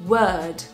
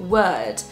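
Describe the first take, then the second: The two takes are said the same way.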